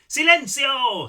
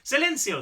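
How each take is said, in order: First: It is said in an imitated, put-on accent. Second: It is said in the reader's natural accent. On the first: "I don't know why I did that in Seth's accent" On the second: "I can't do a, a Spanish accent"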